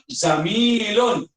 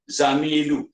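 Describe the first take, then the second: First: The word ends with a final n sound. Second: The word ends on a vowel, no n. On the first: The speaker calls it right. "Ketika mufrad, zamilun" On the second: The speaker calls it wrong. "jangan baca zamilu... Salah"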